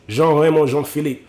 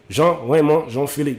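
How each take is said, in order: First: The name is said in a Haitian way. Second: The same.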